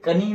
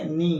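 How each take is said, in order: First: A K sound is heard before the N. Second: The word starts directly with the N sound. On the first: The speaker calls it wrong. "कनी नहीं पढ़ेंगे" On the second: The speaker calls it right. "क्या पढ़ेंगे, नी"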